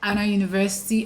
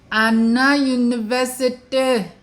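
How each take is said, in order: First: The name is said quickly in her usual accent. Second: The name is said slowly with stretched-out sounds. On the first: The speaker calls it wrong. "I do not go Anna University" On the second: The speaker calls it right. "you might have to draw your words"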